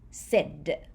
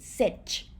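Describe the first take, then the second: First: The word ends with a d sound. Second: The word ends with a ch sound. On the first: The speaker calls it right. "you say sid with Dodic ending consonant" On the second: The speaker calls it wrong. "instead of saying sit"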